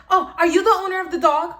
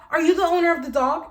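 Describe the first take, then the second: First: Loud, high and fast demanding question; demanding lady. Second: Higher and louder, insistent repeat; demanding lady. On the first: Angry neighbor lady confronting Jose, loud high demanding. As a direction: mimic a pushy, entitled woman. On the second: Angry neighbor lady repeating to Jose, loud insistent demand. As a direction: press the question again, entitled. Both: Retold or imitated. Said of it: "Look how she's talking".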